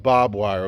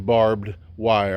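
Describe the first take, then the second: First: The first word is reduced to sound like 'bob'. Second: The first word is said in full as 'barbed'. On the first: It is the everyday way to say it. "I call it bob wire" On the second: It sounds fancy. "Fancy people say barbed wire"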